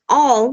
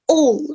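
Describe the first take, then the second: First: The vowel is open, not like an O. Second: The vowel is narrow and sounds like an O. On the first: The speaker calls it wrong. "They don't pronounce it like all" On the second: The speaker calls it right. "They pronounce it like all. ... it sounds like an O"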